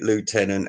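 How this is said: It is pronounced the American way. The speaker calls it wrong. "this isn't America, you fucking idiot"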